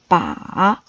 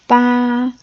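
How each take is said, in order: First: It is said with a low dipping pitch. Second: It is said with a high level pitch. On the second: "That's the first"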